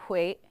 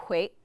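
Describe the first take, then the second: Both takes have the same delivery.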